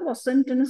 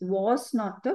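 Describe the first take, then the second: First: It is contracted into one short word. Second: It is said as two separate full words. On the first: "short ஃபார்மோட வாசிக்கிறேன்"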